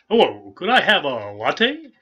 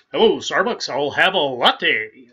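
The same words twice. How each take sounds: First: Loud, slow, higher radio announcer voice ordering a latte; Paul Harvey-like voice. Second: Much louder, higher, slow booming radio announcer order; Paul Harvey-like voice. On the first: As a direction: boom it out like an old radio newsman. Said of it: "That reminds me of Paul Harvey". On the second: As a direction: drawl it out like a big old radio newsman. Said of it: "that was Paul Harvey". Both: Retold or imitated.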